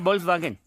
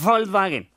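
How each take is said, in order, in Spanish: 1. Se dice con pronunciación española. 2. Se dice con pronunciación alemana. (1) "En español" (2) "En alemán es"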